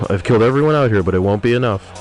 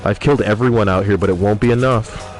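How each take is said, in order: Both takes have the same delivery.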